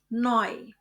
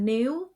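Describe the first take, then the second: First: The vowel sounds like 'oy', as in 'boy'. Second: The vowel sounds like 'oo', as in English 'new'. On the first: The speaker calls it right. "kombinasi huruf E U dibaca oi" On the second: The speaker calls it wrong. "Jadi bukan new"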